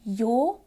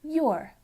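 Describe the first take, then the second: First: "your" as one long vowel, no r; speaker's own accent. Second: "your" with a sounded r; Irish or American sound. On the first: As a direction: say "your" like "yaw", r silent. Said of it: "In my accent, that sounds like". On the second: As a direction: say "your" as "yoo-er", r pronounced. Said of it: "in some other accents ... might sound more like". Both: Shown as a demonstration.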